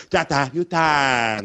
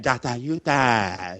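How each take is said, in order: First: Slow put-on Chinese accent. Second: Slow, low put-on Chinese accent. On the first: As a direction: stretch each syllable in a Chinese accent. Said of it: "you gotta say it like that". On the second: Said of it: "we say it like that". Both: Shown as a demonstration.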